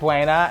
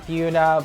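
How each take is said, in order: First: The first syllable sounds like 'bway'. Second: The first syllable sounds like 'byoo'. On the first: This is how outsiders say the name. "Everybody pronounces it Buena" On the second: This is how locals say the name. "we call it Buna"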